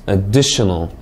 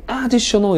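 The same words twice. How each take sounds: First: "additional" with stress on DI; careful word stress. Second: "additional" stressed high on the first syllable AD; AD-ditional, pitch jumping up at the start of "additional"; misplaced word stress. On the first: Teacher models "additional" for students, careful word stress. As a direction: stress the second syllable of "additional". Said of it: "강세 주의해서 잘 읽으셨습니까". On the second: Teacher shows a mistake, first syllable of "additional" wrongly stressed. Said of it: "강세 잘못 넣으면 없는 단어가 된다". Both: Shown as a demonstration.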